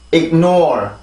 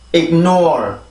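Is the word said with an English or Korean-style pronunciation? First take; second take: English; English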